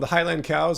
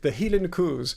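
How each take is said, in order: First: It is said in the speaker's normal accent. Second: It is said in an imitated Scottish accent.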